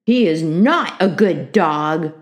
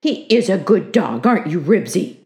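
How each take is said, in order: First: "not" punched, slow and loud; slow, emphatic denial leaning on "not"; stress on NOT. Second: "is" leaned on, insisting; firm, louder voice with weight on "is"; stress on IS. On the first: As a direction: contradict stubbornly, hitting "not" hard. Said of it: "contradicted Ramona". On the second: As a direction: defend the dog, hitting "is". Henry defends his dog to Ramona. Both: A narrator's reading.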